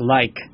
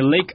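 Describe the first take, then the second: First: The vowel sounds like 'eye' in 'like'. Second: The vowel sounds like 'ay' in 'day'. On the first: "а «лайк»" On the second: "Они говорят не «лейк»"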